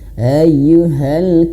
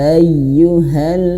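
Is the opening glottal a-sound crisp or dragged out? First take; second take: dragged; crisp. First: The opening glottal sound is dragged out. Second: The opening glottal sound is crisp and short. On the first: The speaker calls it wrong. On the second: The speaker calls it right.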